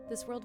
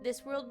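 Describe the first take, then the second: First: It is said in a normal speaking voice. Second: It is said in an odd put-on voice. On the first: "I'll do a normal voice" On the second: "I'll stop doing the weird voice"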